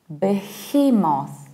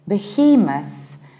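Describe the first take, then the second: First: The final syllable is said fully and clearly. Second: The final syllable is reduced and weak. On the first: "without reducing the ending" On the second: "behemoth with a reduced ending"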